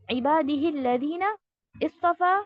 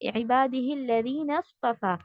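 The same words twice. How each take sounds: First: A separate glottal stop begins istafa. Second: The nun runs straight into the next sound. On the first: The speaker calls it wrong. "ऐसे नहीं पढ़ा है" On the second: The speaker calls it right. "नून के बाद आप सीधा मिलाते हैं सौद के साथ"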